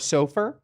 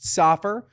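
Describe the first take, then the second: First: The name is said with a Hebrew pronunciation. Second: The name is said with an American pronunciation. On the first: This is the original form of the family name. "but it's really sofer" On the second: This is the form the family name took in America. "the pronunciation became a little bit more Americanized"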